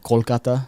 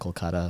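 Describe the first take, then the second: First: The stress is on the first syllable. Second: The stress is on the second syllable. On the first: It is the traditional pronunciation. "if I'm saying it traditionally" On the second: It is a westernized pronunciation. "if I'm saying it like slightly westernized"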